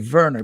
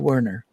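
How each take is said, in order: First: The name starts with a V sound. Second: The name starts with a W sound. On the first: "I want to use the, the German pronunciation" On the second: "but um, I'll, I'll call you Werner"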